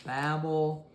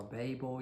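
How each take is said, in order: First: Babel said like "babble"; short-a pronunciation. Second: Babel said as "BAY-bul"; long-a pronunciation. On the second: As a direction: give Babel a long "ay" first vowel. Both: Shown as a demonstration. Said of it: "you can pronounce it either way".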